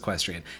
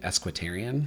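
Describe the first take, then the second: First: The word starts with a plain e sound. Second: The word starts with an added s sound. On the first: The speaker calls it right. "of course it's equestrian" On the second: The speaker calls it wrong. "for some reason I kept saying Esquitarian"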